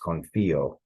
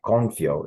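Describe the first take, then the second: First: The i and o are two separate syllables. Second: The i and o blend into one syllable. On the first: The speaker calls it right. "we want to actually separate the I and the O here" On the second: The speaker calls it wrong. "it's not confio"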